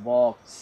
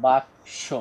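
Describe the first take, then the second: First: বক্স said the English way, short o as in box; বক্স with the English short o, no vowel after the b; English pronunciation. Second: বাক্স said the Bengali way, open a after the b, two syllables; বাক্স with a long open a, the Bengali form of box; Bengali pronunciation. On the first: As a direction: say বক্স like the English word box, one tight syllable. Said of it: "ইংরেজিতে বলা হয় বক্স". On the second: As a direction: say বাক্স as Bengali baks-o, with a broad a. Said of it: "বাংলায় আমরা যেটাকে বলে থাকি". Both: Shown as a demonstration.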